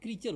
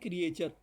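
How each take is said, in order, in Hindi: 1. इस शब्द में दो अक्षर हैं, crea-ture। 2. इस शब्द में तीन अक्षर हैं, cre-a-ture। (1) "इसका उच्चारण क्रीचर होता है" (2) "आप इसका उच्चारण कर रहे हैं क्रिएचर"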